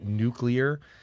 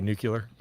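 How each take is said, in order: First: The word ends like 'clear'. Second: The word ends like 'cular'. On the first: This is the standard pronunciation. "I know it's technically nuclear" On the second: This imitates a former president's way of saying it. "it's still fun to say nuclear"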